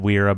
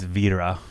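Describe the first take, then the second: First: The name begins with a W sound. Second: The name begins with a V sound. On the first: This is how people in the US say it. The speaker calls it wrong. "in the U S they just they calling it Wera" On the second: This is how the company itself says it. The speaker calls it right. "but it's Vera"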